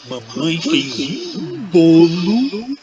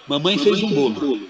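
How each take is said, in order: First: It is said in a delighted, enthusiastic tone. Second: It is said in a plain, neutral tone. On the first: The cake is delicious and wonderful. "Vocês vão achar que o bolo que minha mãe fez é delicioso, maravilhoso" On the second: It is simply a fact that the cake was made. "Vocês vão entender que minha mãe fez um bolo"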